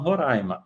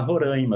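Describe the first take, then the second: First: It is said the way Roraima locals say it. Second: It is said the way other Brazilians tend to.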